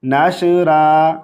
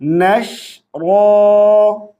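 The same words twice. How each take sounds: First: नाशरा with a thin ra and echoing shin; नाशरा, ra light; wrong reading. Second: नशरा drawn out with a heavy ra; slow नशरा, ra thick; नशरा recited slowly with a heavy ra; correct tajweed. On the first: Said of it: "इस तरह नहीं पढ़ेंगे". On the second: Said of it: "तो कैसे पढ़ेंगे?". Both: Shown as a demonstration.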